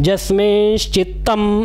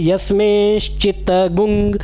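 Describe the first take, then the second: First: The word ends with a plain 'm' sound. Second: The word ends with a nasal 'gung' sound. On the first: "जस्मिंश्चित्तम ऐसे पढ़िए" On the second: "या फिर यस्मिंश्चित्तगुंग"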